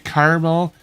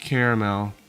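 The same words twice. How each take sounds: First: It is said in two syllables, like karmel. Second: It is said in three syllables, care-a-mel. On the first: The speaker calls it wrong. "that's a brand name. K A R M E L" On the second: The speaker calls it right. "But it's caramel"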